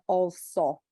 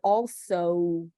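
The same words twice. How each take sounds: First: The final o stays a pure vowel. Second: The final o glides into a w sound. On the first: The speaker calls it wrong. "it's not also" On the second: The speaker calls it right. "in the word also"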